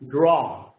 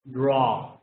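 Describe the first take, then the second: First: The word is pronounced with an English vowel. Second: The word is pronounced with an English vowel.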